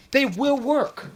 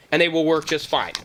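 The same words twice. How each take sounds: First: "will" drawn out higher and slow; slow it down, land on "will"; stress on WILL. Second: Said in the usual way. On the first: Real, not acted. Insists to doubting buyers, slow stress on "will".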